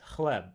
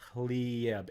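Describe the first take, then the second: First: It is said with a plain 'e' after the L. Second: It is said with a 'ya' sound after the L. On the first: "Serbian, the word for bread is hleb" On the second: "the word for bread in Bosnian is hlijeb"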